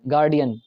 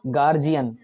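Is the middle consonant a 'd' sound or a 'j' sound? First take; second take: d sound; j sound. First: The middle consonant is a 'd' sound. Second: The middle consonant is a 'j' sound. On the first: "इसे कुछ लोग गार्डियन पढ़ते हैं" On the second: "एक शब्द है गार्जियन"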